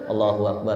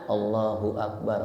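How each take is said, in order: First: It is said fast, 'hu' blurring into 'wa'. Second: It is said slowly, with a clear 'hu'. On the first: The speaker calls it wrong. "Kalau udah kecepatan" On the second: The speaker calls it right. "Makanya pelan-pelan"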